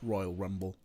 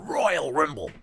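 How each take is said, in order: First: Rumble is said with a normal 'u' vowel. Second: Rumble is said with an 'i' vowel, like rimble.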